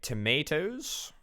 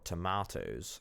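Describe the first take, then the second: First: It is said in an ordinary, everyday way. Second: It is said in a posh, dignified way.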